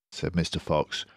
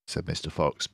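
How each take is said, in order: Both takes have the same delivery.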